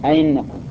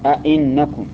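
First: The second glottal stop is softened, no lengthening. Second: Both glottal stops are fully pronounced, no lengthening. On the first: "تسهيل الثانية أئنكم سهلة، خليها بين الياء والهمزة" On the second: "تحقيق الهمزتين تقول أئنكم، هذا التحقيق"

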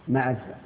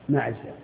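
No difference in how they are said.

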